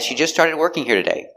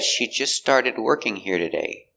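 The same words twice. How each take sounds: First: The sentence is said at a normal speed. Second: The sentence is said more slowly.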